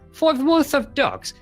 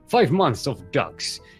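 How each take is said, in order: First: It is said in a British accent. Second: It is said in the speaker's usual accent. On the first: The speaker calls it right. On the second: The speaker calls it wrong.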